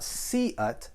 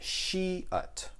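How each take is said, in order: First: The word begins with a plain s sound. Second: The word begins with an sh sound. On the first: The speaker calls it wrong. "So it's not see-ut" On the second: The speaker calls it right. "but she-ut"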